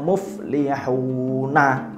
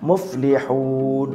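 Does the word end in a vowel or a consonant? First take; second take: vowel; consonant. First: The word ends with a full vowel ending. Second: The word stops on a held final consonant. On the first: This is how it is written. "seperti itu kan tulisannya" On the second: This is how it is read when stopping. "tapi dibaca muflihun"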